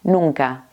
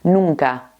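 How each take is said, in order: No difference in how they are said.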